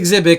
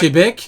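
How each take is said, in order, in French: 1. Le mot commence par un son 'ks'. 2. Le mot commence par un son 'sh'. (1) "alors que normalement c'est Xebec" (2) "ils disent"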